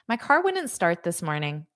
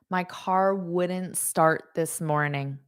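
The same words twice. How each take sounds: First: The sentence is said at a faster pace. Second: The sentence is said at a slower pace.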